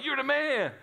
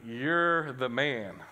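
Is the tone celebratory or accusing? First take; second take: celebratory; accusing. First: It is said as celebratory praise. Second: It is said as a serious accusation.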